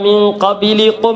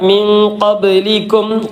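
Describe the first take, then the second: First: An extra i vowel separates b and l. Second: B and l join with no vowel between. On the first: The speaker calls it wrong. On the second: The speaker calls it right.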